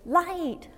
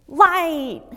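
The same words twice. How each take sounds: First: Put-on high little child's voice pointing out a light; toddler saying light. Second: Put-on loud, high child's cry of "Light!"; toddler shouting light. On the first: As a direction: imitate a small daughter chirping the word "Light!" high and bright. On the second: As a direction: call out "Light!" like an excited little daughter spotting it in the store. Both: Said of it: "She goes".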